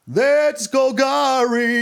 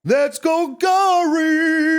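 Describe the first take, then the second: First: Slow emphatic catchphrase; slow drawn-out. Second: High, very slow epic announcer call. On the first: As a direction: stretch every word out slowly. Drawn-out catchphrase, first take. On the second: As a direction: boom it out like an arena announcer. Catchphrase, bigger second take. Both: Pretend.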